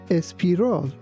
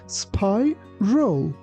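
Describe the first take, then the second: First: An extra vowel sound comes before the s. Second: The word starts directly with the s sound. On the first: The speaker calls it wrong. "be careful not to say espiral" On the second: The speaker calls it right. "It's spiral"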